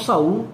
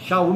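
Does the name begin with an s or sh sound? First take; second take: s; sh. First: The name begins with a plain s sound. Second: The name begins with an sh sound. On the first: The speaker calls it wrong. "Não Saul, não" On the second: The speaker calls it right. "Shaul mesmo, a pronúncia"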